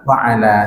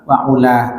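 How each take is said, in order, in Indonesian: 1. Vokal tengahnya bunyi a terbuka. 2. Vokal tengahnya bunyi u bulat.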